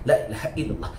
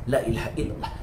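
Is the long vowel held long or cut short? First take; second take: cut short; cut short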